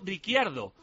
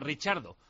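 First: The double c is not said as ch. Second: The double c is said as ch. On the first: The speaker calls it wrong. "por qué pronunciamos Ricciardo como Ricciardo" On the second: The speaker calls it right. "esas letras se pronuncian como CH en italiano, que la pronunciación correcta es esa"

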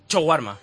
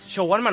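First: The word begins with a sharp ch sound. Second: The word begins with a soft sh sound. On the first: The speaker calls it right. "Tiene que ser con CH" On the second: The speaker calls it wrong. "shawarma no"

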